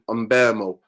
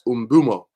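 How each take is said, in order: First: The middle vowel sounds like 'eh'. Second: The middle vowel sounds like 'oo'. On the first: The speaker calls it wrong. "Not in Umbemo" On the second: The speaker calls it right. "It's Umbumo. That's how you pronounce it"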